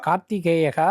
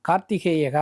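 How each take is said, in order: The two takes are said the same way.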